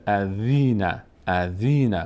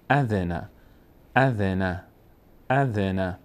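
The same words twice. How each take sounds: First: "اذینه" as a-dhee-na, middle drawn out; wrong long ee. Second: "اذن" joined as a-dhe-na, short e; correct short e. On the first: Retold or imitated. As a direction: mimic the mistake, stretching ee in "اذینه". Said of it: "بعضیا اینجوری میخونن". (اَذینه با ایِ کشیده) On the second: Shown as a demonstration. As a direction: join "اذن" smoothly as a-dhe-na, no ee. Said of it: "صدای ا". (اَذِنَ با کسرهٔ کوتاه)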